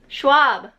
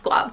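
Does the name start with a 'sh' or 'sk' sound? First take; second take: sh; sk. First: The name starts with a 'sh' sound. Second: The name starts with an 'sk' sound. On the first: The speaker calls it right. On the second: The speaker calls it wrong.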